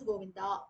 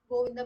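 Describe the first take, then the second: First: The final vowel is lengthened. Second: The final vowel is short. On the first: The speaker calls it wrong. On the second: The speaker calls it right.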